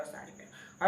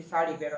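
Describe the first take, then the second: First: Breathy whispered echo of the request; whispered repeat. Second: Said in the usual way. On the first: Retold or imitated. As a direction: whisper it the second time, barely voiced. (ધીમેથી ફફડાટમાં)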